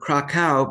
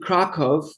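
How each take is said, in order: First: The name is pronounced the English way. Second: The name is pronounced the Polish way. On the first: "instead of Krakow" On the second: "I pronounce it Krakow ... that's the pronunciation in, in I guess, Polish"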